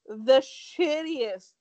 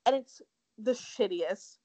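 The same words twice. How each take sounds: First: "shittiest" stretched very slow, louder and higher; drawn-out emphasis. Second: Said in the usual way. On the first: Acted. Ranting to her co-host about Ellen's apology, slow and emphatic. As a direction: lean hard into "shittiest" and drag it out.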